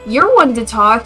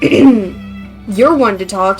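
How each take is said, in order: First: It is said in a high-pitched voice. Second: It is said in a lower-pitched voice.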